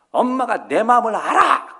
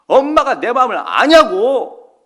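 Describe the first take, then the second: First: Daughter snapping. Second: A daughter shouting slowly, much louder and higher; angry tearful shout. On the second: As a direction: yell it through tears at your mother. Daughter screaming, crying at mother. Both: Retold or imitated.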